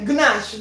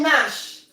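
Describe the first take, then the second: First: The word begins with a hard G sound. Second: The word begins with an N sound only. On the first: The speaker calls it wrong. "before I used to pronounce it with the G, you know, the G sound" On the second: The speaker calls it right. "So the G sound is silent"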